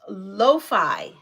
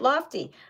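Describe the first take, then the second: First: The second syllable starts with an f sound. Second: The second syllable starts with a t sound. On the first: The speaker calls it right. "pronounced lo-fi" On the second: The speaker calls it wrong. "I pronounced it Lofty"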